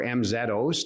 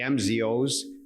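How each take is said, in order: First: The letter Z is said the Canadian way, 'zed'. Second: The letter Z is said the non-Canadian way, 'zee'.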